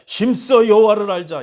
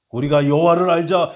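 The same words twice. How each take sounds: First: "힘써" hit higher and louder still, ending in a fall; a preacher urging the flock at full force; stress on 힘써. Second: Loud, high call with weight on 여호와를; a preacher crying out Hosea's call to the congregation; preached call. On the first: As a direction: drive "힘써" home at the peak of the sermon. Preacher repeats Hosea's call. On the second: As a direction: proclaim "여호와를" like a summons. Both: Acted.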